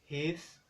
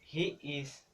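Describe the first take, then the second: First: It is said as one contracted syllable. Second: It is said as two full words. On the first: "se convierten en" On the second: "las combinaciones"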